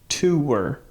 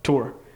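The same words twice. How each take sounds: First: The word is said as two syllables. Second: The word is said as one syllable. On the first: "she hates that" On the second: "she pronounces it like it's w- like one syllable"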